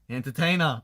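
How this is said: It is said loosely, with a relaxed Australian accent.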